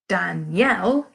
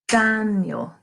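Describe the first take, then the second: First: The stress is on the second syllable. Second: The stress is on the first syllable. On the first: "The stressed syllable there falls on the yell" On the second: "Daniel stresses the first syllable of that word"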